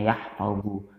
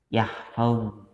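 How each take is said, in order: First: The word ends with a short u vowel. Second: The word ends on a bare consonant, no vowel. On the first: The verb is in its ordinary indicative form. "yang harusnya yahfazu diakhiri dengan harokat dhammah" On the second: The verb is in the jussive mood after lam. "Tandanya adalah sukun yang berada di akhir kalimat"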